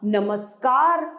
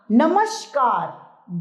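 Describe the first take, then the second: First: नमस्कार said as namaskār; नमस्कार with the s of सड़क; correct pronunciation with s. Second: नमस्कार said as namashkār; नमस्कार with the sh of शलजम; wrong pronunciation with sh. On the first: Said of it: "स सड़क नमस्कार में आता है". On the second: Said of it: "श शलजम नहीं आता". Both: Shown as a demonstration.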